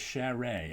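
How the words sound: The name is pronounced in a French way. "give a French twist to it"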